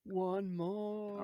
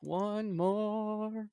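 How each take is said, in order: First: Breathy dramatic whisper, higher. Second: Higher, louder theatrical announcement; dramatic voice. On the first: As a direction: whisper it like a secret. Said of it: "What was that, Drew?". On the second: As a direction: announce it like a trailer voice. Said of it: "That was good". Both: Pretend.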